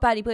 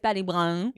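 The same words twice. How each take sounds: First: The word 'Blue' is said plainly, without twang. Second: The word 'Blue' is drawn out with a twang. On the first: The speaker calls it wrong. "It's not" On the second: The speaker calls it right.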